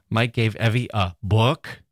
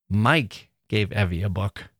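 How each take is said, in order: First: The stress is on book. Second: The stress is on Mike.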